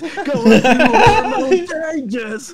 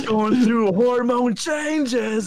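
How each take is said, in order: First: Much higher, louder, very slow cracking voice. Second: Put-on slow teen voice breaking higher; voice crack. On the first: Pretend. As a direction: ham up the breaking voice, laughing. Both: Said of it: "You got a voice crack while you do it?".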